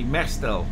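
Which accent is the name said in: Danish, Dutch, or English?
English. The name is said in an English accent. "So in English it should be"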